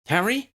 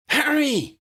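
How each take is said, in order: First: High, rising call of his name; calling Harry, much higher, unsure it's him. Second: Much higher, louder cry of his name; joyful shout. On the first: Ginny calls Harry, higher and questioning. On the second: Ginny cries Harry's name, high and louder. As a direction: shout it out as she runs to him. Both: Acted.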